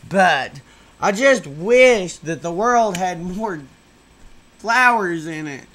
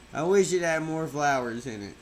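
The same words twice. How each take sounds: First: Slow and louder, forcing some vigor into it; a try at saying it with real vigor; with emphasis. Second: Said in the usual way. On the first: Shown as a demonstration. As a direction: push every word out with effort. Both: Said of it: "I wish I could say it with more emphasis".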